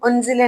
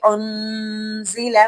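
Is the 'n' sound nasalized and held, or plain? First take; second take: plain; nasalized. First: The n sound is plain, without a held nasal hum. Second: The n sound is held with a nasal hum. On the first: The speaker calls it wrong. "हम उन्जिला नहीं पढ़ेंगे" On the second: The speaker calls it right. "बल्कि उन्जिला"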